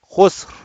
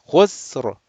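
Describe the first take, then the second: First: The final R is weak and unvoiced. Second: The final R is clearly voiced. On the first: The speaker calls it wrong. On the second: The speaker calls it right. "Put the voice"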